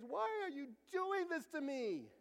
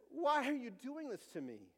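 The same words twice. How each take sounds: First: High, drawn-out mock crying; imitated tearful wail. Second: Higher-pitched complaint, a touch of pleading; mild plea. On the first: Boy asking his parents during allergy test, tearful wail. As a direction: wail it like a small boy in tears. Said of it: "he said this in tears". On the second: Retold or imitated. Himself to God when life hurts, mild plea. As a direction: retell your own plea to God, pitched up. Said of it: "That's been me".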